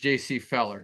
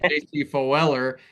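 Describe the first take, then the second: First: The surname's first vowel sounds like 'eh'. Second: The surname's first vowel sounds like 'oh'. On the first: The speaker calls it right. "It's J C Feller" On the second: The speaker calls it wrong. "I pronounce it J C Foeller"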